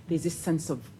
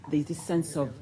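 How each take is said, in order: Both takes have the same delivery.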